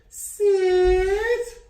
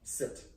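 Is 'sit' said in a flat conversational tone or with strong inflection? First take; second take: strong inflection; flat conversational. First: It is said with strong, exaggerated inflection. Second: It is said in a flat, conversational tone.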